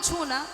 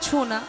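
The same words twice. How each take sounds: First: It is said in a playful, coy tone. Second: It is said in a stern, serious tone. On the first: It is said to someone close and familiar. "আপনি তখনও বলবেন ছো না" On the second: It is said to a stranger. "অপরিচিত কাউকে বলবে ছো না"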